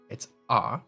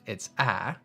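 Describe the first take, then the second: First: The vowel sounds like the open ah sound. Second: The vowel sounds like the short a sound. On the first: "as part of the word father" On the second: "as part of the word fast"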